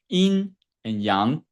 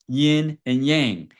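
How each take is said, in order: First: The words get a native-style Chinese pronunciation. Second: The words get a common anglicized pronunciation. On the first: The speaker calls it right. "It's actually pronounced yin and yang" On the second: The speaker calls it wrong. "I'm mispronouncing it, but this is how most people pronounce it"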